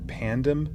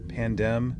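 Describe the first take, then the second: No difference in how they are said.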